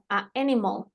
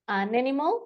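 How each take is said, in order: First: A short break separates the two vowels. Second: The words run together without a break. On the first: The speaker calls it wrong. "estas son incorrectas" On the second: The speaker calls it right. "suena todo junto"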